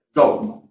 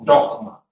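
First: "Dogma" with a g of light friction; soft fricative g in dogma. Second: "dogma" with the g said like a harsh Spanish j; wrong jota in dogma. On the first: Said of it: "una G con una pequeña fricción". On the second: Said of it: "no debe pronunciarse como velar fricativa". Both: Shown as a demonstration.

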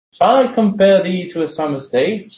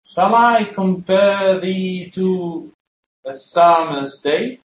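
First: Said in the usual way. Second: "Shall I compare thee to a summer's day" very slow, each syllable drawn out, beats marked; iambic stress demo. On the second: Shown as a demonstration. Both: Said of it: "la estructura del jambo es".

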